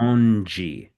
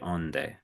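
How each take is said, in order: First: The word ends with a soft 'jee' sound. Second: The word ends with a plain 'deh' sound. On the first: The speaker calls it right. "but it's" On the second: The speaker calls it wrong. "You want to say onde, kind of like donde"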